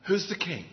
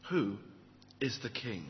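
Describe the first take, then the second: First: Said in the usual way. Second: Who IS the king, is weighted and dropping soft; stress on is. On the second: Shown as a demonstration. Preacher repeating the question to the congregation, stressing is. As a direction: lean on is, then let the line fall quiet. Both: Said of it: "That's what it's all about".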